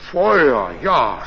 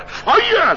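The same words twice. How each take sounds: First: A low, matter-of-fact "Feuer, ja"; unbothered, just confirming "Feuer"; calm rider. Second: A high, incredulous "Feuer" that jumps up and falls; astonished innkeeper. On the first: Rider calmly confirming to the innkeeper that he wants fire, unhurried. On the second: Innkeeper repeating the rider's request for fire, incredulous. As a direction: echo "Feuer" in disbelief. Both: A narrator's reading.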